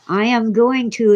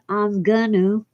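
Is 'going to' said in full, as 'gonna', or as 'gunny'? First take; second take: full; gonna. First: Every word is said fully and separately. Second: The phrase is reduced to 'I'm gonna'. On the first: The speaker calls it right. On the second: The speaker calls it wrong.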